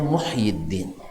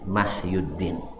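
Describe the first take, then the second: First: The name begins with a 'mu' sound. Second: The name begins with a 'ma' sound. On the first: The speaker calls it right. "aslinya sebenarnya Muhyiddin" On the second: The speaker calls it wrong. "salah salah baca sehingga dibacanya Mahyuddin"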